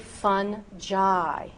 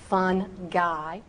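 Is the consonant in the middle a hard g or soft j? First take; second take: soft j; hard g. First: The middle consonant is a soft j sound. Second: The middle consonant is a hard g sound. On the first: The speaker calls it right. "It is correctly fungi" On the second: The speaker calls it wrong. "it is not fun guy"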